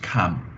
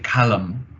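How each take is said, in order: First: The L sound is silent in the word. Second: The L sound is pronounced in the word. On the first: The speaker calls it right. "actually in English it's just cam" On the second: The speaker calls it wrong. "you might want to say calm"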